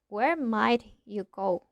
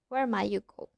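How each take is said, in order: First: The t and y are said separately. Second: The t and y merge into a ch sound. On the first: The speaker calls it wrong. "We don't say" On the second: The speaker calls it right. "We say"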